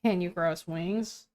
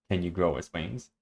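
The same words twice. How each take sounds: First: Low, soft, dry wry tone; deadpan it quietly and low. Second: Lower, softer, dry delivery; wry. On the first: Partner correcting the reader's line, wry tone. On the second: Reader retrying after partner's correction, wry tone. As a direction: copy a low, dry wry reading. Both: Shown as a demonstration. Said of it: "Wry tone is what I always do".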